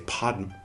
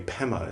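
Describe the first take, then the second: First: The word has a d sound in the middle. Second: The word has no d sound in the middle. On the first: This follows the Sanskrit form. The speaker calls it right. "we should say Padma" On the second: This follows the traditional Tibetan form. The speaker calls it wrong. "instead of Pema"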